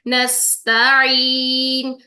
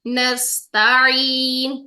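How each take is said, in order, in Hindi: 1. बीच का व्यंजन गले से निकलने वाली ऐन आवाज़ है। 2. बीच का व्यंजन गले से निकलने वाली ऐन आवाज़ है।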